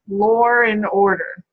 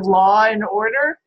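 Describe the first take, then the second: First: An R sound links 'law' to 'and'. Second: No R sound between 'law' and 'and'. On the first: "intrusive R" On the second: "instead of law and order"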